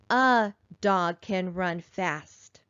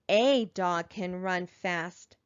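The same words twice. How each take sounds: First: The word 'a' has a reduced 'uh' vowel. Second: The word 'a' has a full 'ay' vowel. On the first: The speaker calls it right. "we sound like more experienced readers when we say" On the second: The speaker calls it wrong. "It's not incorrect to say"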